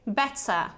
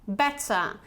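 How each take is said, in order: Both takes have the same delivery.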